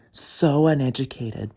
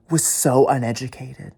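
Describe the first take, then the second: First: Stretched, loud, spaced out; slow scornful repeat; slow emphatic repeat. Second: Loud. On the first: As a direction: drag out so uneducated with a heavy so. Repeated slowly. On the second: Repeated insult. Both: Real, not acted.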